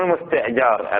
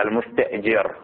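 First: المستأجر said with an "a" after the jim; المستأجر with an open final vowel, -jar; fatha on the jim. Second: المستأجر said with an "i" after the jim; المستأجر with a short front final vowel, -jir; kasra on the jim. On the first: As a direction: say المستأجر as al-musta'jar. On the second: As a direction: say المستأجر as al-musta'jir. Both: Shown as a demonstration. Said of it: "بكسر الجيم لا بفتحها".

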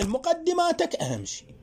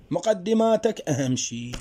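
First: مقدماتك raised high and hit hard, first time round; teacher stresses مقدماتك high; emphatic repeat. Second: Said in the usual way. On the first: Shown as a demonstration. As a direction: lift مقدماتك up high to drive the point home.

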